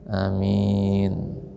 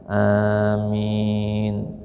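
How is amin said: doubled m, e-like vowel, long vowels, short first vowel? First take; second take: short first vowel; long vowels. First: The first vowel is short, the m is single. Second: The first vowel is long, the m is single. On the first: "Yang kedua itu dengan dipendekkan dan secara ringan" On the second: "Amin bil maddi dengan panjang, wa takhfif dan ringan"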